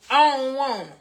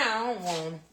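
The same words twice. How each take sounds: First: Higher, louder repeated refusal; emphatic refusal. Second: Said in the usual way. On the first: Real, not acted. Cook refusing beans without ground beef, emphatic. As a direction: put your foot down, loud and high.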